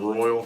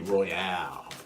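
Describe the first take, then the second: First: The word ends with a short 'al' sound. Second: The word ends with an 'ale' sound like Yale. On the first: The speaker calls it wrong. "Instead of Royal, R O Y A L" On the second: The speaker calls it right. "it's R O Y A L E, Royale"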